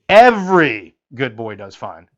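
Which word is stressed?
Every. The stress falls on the word every.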